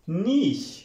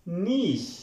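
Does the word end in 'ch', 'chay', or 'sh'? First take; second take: sh; sh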